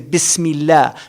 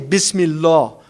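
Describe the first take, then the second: First: The L sound is light and thin. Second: The L sound is heavy and thick. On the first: The speaker calls it right. "You say Bismillah. Because the kasra moves it to tarqiq" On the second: The speaker calls it wrong. "you don't say Bismillah"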